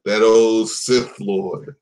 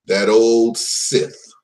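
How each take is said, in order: First: Drawn out, ominous Sith Lord; slow dramatic emphasis. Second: Drawn out, ominous; slow dramatic emphasis. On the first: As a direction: stretch it like a movie villain intro. Repeated dramatic villain line. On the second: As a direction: stretch each word for drama. Dramatic villain naming, slowed. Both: Acted.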